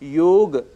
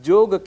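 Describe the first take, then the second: First: The word begins with a y sound. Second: The word begins with a j sound. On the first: The speaker calls it right. "ऐसे ही योग" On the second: The speaker calls it wrong. "जिसे हम जोग कह बैठते हैं"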